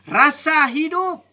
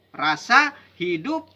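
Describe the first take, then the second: First: "Rasa hidup" raised high and loud, punching "Rasa"; stressed first take. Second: Said in the usual way. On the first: Real, not acted. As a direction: hit "Rasa" hard, higher and louder. (tekanan kuat pada "Rasa", lebih tinggi dan keras)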